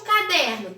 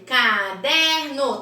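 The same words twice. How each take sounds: First: Said in the usual way. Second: "Caderno" slowly as ca... der... no; three separate beats on "Caderno": ca, der, no; split into syllables. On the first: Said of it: "Por último". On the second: Shown as a demonstration. Teacher ordering syllables for pupils, "Caderno" split as ca... der... no. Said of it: "K é o primeiro".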